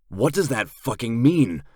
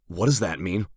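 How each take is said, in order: First: Louder, pressing demand; panicked narrator demanding the truth. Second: Said in the usual way. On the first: A narrator's reading. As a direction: push hard for the answer. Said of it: "I say a bit louder".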